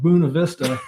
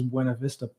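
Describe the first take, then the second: First: The name is said in the local pronunciation. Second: The name is said in the speaker's own pronunciation. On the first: This is how locals say the name. The speaker calls it wrong. "they're like" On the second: This is how the speaker says the name. The speaker calls it right. "what I would pronounce as"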